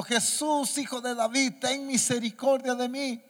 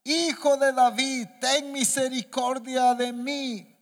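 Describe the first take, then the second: First: High-pitched plea at ordinary volume; restrained first cry of a blind beggar. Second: High, loud, drawn-out plea; crying out harder. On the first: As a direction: call out to Jesus for mercy, pitched up. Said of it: "Entonces dio voz diciendo". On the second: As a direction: stretch each word into an insistent call. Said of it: "Pero él clamaba mucho más". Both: A narrator's reading.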